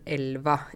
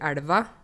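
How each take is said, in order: First: The L is a plain, clear L sound. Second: The L is a thick, flapped L sound. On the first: This is the usual standard form. "høres jo veldig annerledes ut enn elva" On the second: This is the speaker's home dialect. "Når jeg sier elva"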